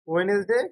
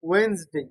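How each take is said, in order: First: It is said with three syllables, we-nes-day. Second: It is said with two syllables, wenz-day. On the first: The speaker calls it wrong. "ওয়েনেসডে নয়" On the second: The speaker calls it right. "ওয়েন্স জ sound"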